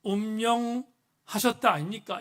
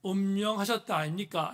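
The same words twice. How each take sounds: First: Slow, louder mock Gyeongsang accent; 경상도 사투리. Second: 경상도 말씨를 가볍게 흉내; lightly imitated Gyeongsang dialect; 경상도 사투리. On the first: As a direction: draw out the imitated Gyeongsang dialect, louder. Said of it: "이렇게 경상도 사투리를 말한다고". (경상도 사투리를 느리고 크게 흉내 내어) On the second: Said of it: "경상도 버전으로". (경상도 사투리를 살짝 흉내 내어)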